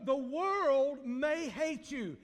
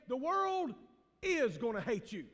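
First: Slow phrase with "may" held out as a possibility; stress on may. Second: Pause, then come down firmly on "is"; stress on is. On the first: Preacher warning the congregation, slow weight on "may". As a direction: draw out "may" before "hate you". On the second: Preacher cutting to the chase, firm stress on "is" after a pause. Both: Real, not acted. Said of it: "Let me just go ahead and cut to the chase".

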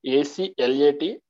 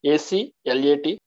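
The two takes are said the same way.

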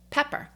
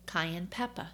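First: Pepper said as "peppuh" with a New York r-colored ending, a bit higher and louder; New York accent. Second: Said in the usual way. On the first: Real, not acted. Slipping into her New York accent while listing tea facts. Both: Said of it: "there goes my New York accent".

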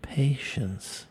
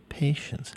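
First: Mock dramatic patience. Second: Dramatic patience. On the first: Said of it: "if I say patience like that one more time". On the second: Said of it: "if I say patience like that". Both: Shown as a demonstration.

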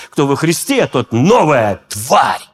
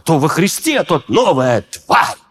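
First: Flat reading. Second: Slow, scornful reading of «тварь» like a grandfather scolding; grandfather's intonation. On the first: Shown as a demonstration. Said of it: "Когда я это прочитал, я расстроился". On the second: Retold or imitated. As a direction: read «тварь» with a mild grandfather's contempt. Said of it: "я слышал интонацию дедушки".

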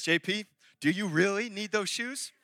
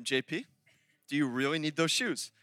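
First: Wife's serious final asking; not playing games. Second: Low, measured question that falls at the end; quiet, pointed wifely check; patient second asking. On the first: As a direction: stretch the question as a last warning. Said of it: "she ain't playing games". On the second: Retold or imitated. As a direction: calmly press the question. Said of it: "She'll say a second time".

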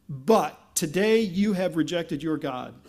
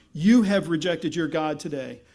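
First: Slow, weighty "But" opening the line; stress on BUT. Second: "You" punched loud at the front, then falling; stress on YOU. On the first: Samuel turning on Israel, stress on "But". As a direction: lean on "But" and take it slowly. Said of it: "what's emphatic in that sentence is not "but". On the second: Samuel accusing Israel, stress on "You". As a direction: hit "You" hard, let the rest drop. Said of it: "what's emphatic in that sentence is not "but," but "you". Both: Shown as a demonstration.

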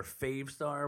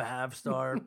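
First: "Fave" with a long a, rhyming with "save"; long-a pronunciation. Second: "Fav" with a short a, rhyming with "have"; short-a pronunciation. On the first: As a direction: say "Fave" with the vowel of "day". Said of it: "It's Fave, I think". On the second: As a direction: say "Fav" with the flat vowel of "cat". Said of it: "I've been saying Fav forever". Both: Shown as a demonstration.

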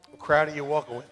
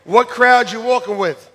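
First: Low, hushed question; soft repeat. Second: Said in the usual way. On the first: Real, not acted. Preacher asking listeners which crowd they walk with, soft and low. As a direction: ask it softly so it sinks in.

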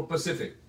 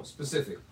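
First: "Pacific" said for "specific", no opening s; mispronounced "specific". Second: Said in the usual way. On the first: Retold or imitated. Quoting somebody's slip of the tongue, mispronounced "Pacific". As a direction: drop the s so it comes out "Pacific". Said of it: "I heard somebody say". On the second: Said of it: "No, specific".

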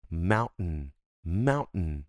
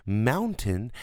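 First: Mountain with the T swallowed, a glottal stop. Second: Mountain with a clear, fully pronounced T; spelled-out T. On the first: Teacher shows how Americans really say it. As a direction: eat the T in mountain. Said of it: "tá meio que comendo todo esse T". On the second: Teacher shows the over-careful version first. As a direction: say every sound in mountain. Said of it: "Mountain é explicadinho". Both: Shown as a demonstration.

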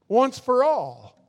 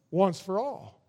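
First: "Once for all" stressed and strong; emphatic. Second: Quiet once for all. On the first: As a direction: drive home "Once for all" slowly. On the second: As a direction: say "Once for all" softly first. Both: Shown as a demonstration.

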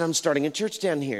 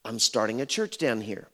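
First: Pitched up from the usual voice; repeated statement. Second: Said in the usual way. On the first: Retold or imitated. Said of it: "What did you say".

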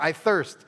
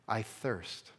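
First: "I thirst" pressed out louder and higher; urgent. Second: Soft, faint "I thirst" from the cross; weak whisper-like. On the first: What Jesus says it feels like. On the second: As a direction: let "I thirst" fall away quietly, spent. Jesus's words on the cross. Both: Retold or imitated.

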